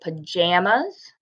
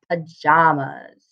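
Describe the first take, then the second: First: The middle vowel sounds like the one in jam. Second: The middle vowel sounds like the one in father.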